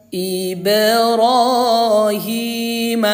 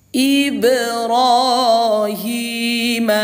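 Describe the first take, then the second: The two takes are said the same way.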